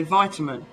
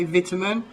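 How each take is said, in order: First: "vitamin" opening VITE, long i; American pronunciation. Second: "vitamin" opening VIT, short i; British "vitamin", first syllable rhymes with "bit"; English pronunciation. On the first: English speaker showing how Americans say it, long-i "vitamin". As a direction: say "vitamin" as VY-tuh-min. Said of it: "Americans say vitamin". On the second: English speaker showing how we say it, short-i "vitamin". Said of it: "we say vitamin". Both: Shown as a demonstration.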